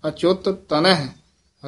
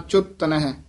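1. ਦੋਵੇਂ ਟ ਦੀਆਂ ਆਵਾਜ਼ਾਂ ਵੱਖ-ਵੱਖ ਉਚਾਰੀਆਂ ਜਾਂਦੀਆਂ ਹਨ। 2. ਦੋਵੇਂ ਟ ਦੀਆਂ ਆਵਾਜ਼ਾਂ ਇੱਕ ਹੋ ਜਾਂਦੀਆਂ ਹਨ। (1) "ਦੋਵੇਂ ਤੱਤੇ" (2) "ਕਿਤੇ ਇਸ ਤਰ੍ਹਾਂ ਨਹੀਂ ਬੋਲ ਦੇਣਾ"

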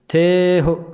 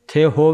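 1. ਪਹਿਲਾ ਸਵਰ ਲੰਮਾ ਕੀਤਾ ਗਿਆ ਹੈ, ਔਂਕੜ ਨਾਲ ਖ਼ਤਮ ਹੁੰਦਾ ਹੈ। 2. ਪਹਿਲਾ ਸਵਰ ਛੋਟਾ ਹੈ, ਔਂਕੜ ਤੋਂ ਬਿਨਾਂ ਖ਼ਤਮ ਹੁੰਦਾ ਹੈ। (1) "ਪਹਿਲੇ ਅੱਖਰ ਦੀ ਐਲਾਨ ਥੋੜ੍ਹੀ ਜਿਹੀ ਲੰਮੀ ਕਰ ਲਾਂਗੇ" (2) "ਥੇ ਹੋ ਵੀ ਨਹੀਂ ਕਹਿਣਾ"

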